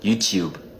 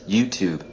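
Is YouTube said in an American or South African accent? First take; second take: South African; American. First: It is said in a South African accent. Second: It is said in an American accent. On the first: "South Africans call it YouTube" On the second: "Americans call this YouTube"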